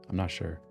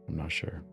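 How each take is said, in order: No difference in how they are said.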